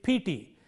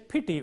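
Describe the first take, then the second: First: The vowels are said lengthened. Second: Both vowels are said short. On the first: The speaker calls it wrong. "You can't say it pt" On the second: The speaker calls it right. "pity with two short vowels"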